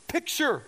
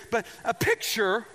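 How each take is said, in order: First: Word jumps up high like a seventh grader's voice; an accidental squeaky rise on picture; voice cracking up. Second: Said in the usual way. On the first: Real, not acted. Preacher's voice slips up high on picture. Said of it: "my voice went up like a seventh grader". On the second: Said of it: "I don't know why my voice went up".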